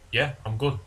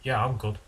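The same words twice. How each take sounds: First: It is said in an aggressive tone. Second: It is said in a calm, mild tone.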